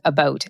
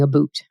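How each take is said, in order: First: The second syllable sounds like 'bout'. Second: The second syllable sounds like 'boot'. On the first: "the word is about, and that's what I'm saying" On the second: "but I am not saying a boot. Well, I did there"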